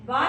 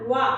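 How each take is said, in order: First: वा without rounded lips; wrong vowel. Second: वा with rounded lips. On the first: Teacher shows how not to say वा. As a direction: say वा flat, the mistake. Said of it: "वा नहीं करना". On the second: Teacher shows the correct rounded वा. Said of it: "होंठों को गोल करके". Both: Shown as a demonstration.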